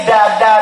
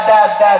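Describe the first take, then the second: The two takes are said the same way.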